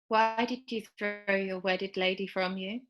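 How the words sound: The line is broken up by pauses.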